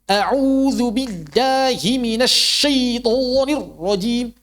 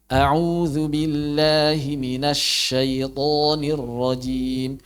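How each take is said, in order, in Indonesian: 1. Setiap bunyi terlalu dipaksakan dan dipanjang-panjangkan secara kaku. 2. Bunyinya mengalir normal tanpa usaha yang dipaksakan. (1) "Takalluf. Enggak enak didengarnya" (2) "Baca biasa"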